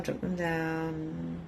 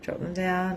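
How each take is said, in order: First: Much softer, slow soothing guide; calming meditation voice; softer slower. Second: Said in the usual way. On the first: Shown as a demonstration. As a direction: ease them into letting go. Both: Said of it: "So just drop your barriers".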